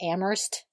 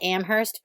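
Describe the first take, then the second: First: It uses the locals' pronunciation of the name. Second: It uses an outsider's pronunciation of the name. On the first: The speaker calls it right. "people who go to Amherst actually call it Amherst" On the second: The speaker calls it wrong. "I may have pronounced it wrong"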